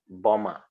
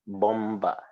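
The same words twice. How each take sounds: First: No B sound follows the M. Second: A B sound is pronounced after the M. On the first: The speaker calls it right. "it is silent. You say" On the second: The speaker calls it wrong. "So you don't call it"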